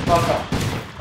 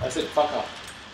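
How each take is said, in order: First: Louder, higher first fuck off. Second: Slow insistent repeat. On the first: Gamer yelling at teammate to back off, loud first shout. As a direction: snap it out hard. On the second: Gamer repeating himself to a teammate, slow firm insistence. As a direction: lean on it, deliberate. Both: Real, not acted.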